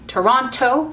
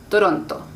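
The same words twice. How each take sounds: First: The t has a strong puff of air. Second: The t has almost no puff of air.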